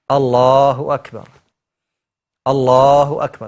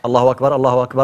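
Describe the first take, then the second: First: A short pause separates the two phrases. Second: The two phrases run together without pause. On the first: The speaker calls it right. "it's like you take a breath" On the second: The speaker calls it wrong. "it's not said like"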